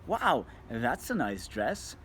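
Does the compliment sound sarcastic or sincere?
sincere. It is said in a warm, sincere tone. The speaker genuinely likes the dress. The speaker calls it right. "now you've just made her day. You're being a nice person"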